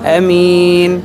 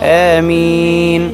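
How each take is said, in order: First: The first vowel is kept short. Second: The first vowel is drawn out long. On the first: "ത്വബഈയായ മദ് ഇല്ലാതെ പറയുന്ന രൂപം" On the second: "ഹംസക്ക് ത്വബഈയായ മദ് ചെയ്തുകൊണ്ടുള്ള രൂപം"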